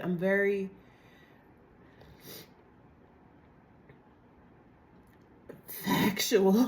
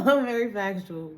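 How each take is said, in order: First: Said in the usual way. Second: Laughing it out, louder. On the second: Shown as a demonstration. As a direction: say it through a laugh.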